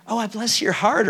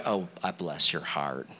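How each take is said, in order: First: "Oh, I bless your heart" with a sugary rise on "heart"; sweet rising tune. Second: "Oh, I bless your heart" dropped much lower and softer, slow and pointed; low, slow, knowing. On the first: Preacher showing the kind reading of "Oh, I bless your heart" with a rising tune. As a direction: say "Oh, I bless your heart" kindly, lifting at the end. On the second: Preacher showing the snide reading of "Oh, I bless your heart", low and slow. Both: Shown as a demonstration. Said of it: "depending on how you say it".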